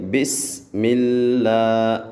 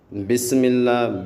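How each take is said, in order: First: بسم اللہ with a steady whistling س, slow; right way. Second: بسم اللہ with the س shaken, slow; wrong way. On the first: Teacher showing pupils the correct بسم اللہ. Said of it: "سیٹی پیدا کرنی ہے". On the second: Teacher showing pupils the wrong بسم اللہ. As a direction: say بسم اللہ letting the س wobble. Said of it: "بسم اللہ ایسے نہیں کرنا". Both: Shown as a demonstration.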